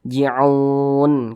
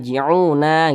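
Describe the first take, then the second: First: The word ends on a bare consonant. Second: The word ends with a short vowel sound. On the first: The reader stops at this word. "Kenapa kok dibaca ji'un?" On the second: The reading continues without stopping. "Kan seharusnya dibaca la yarji'una"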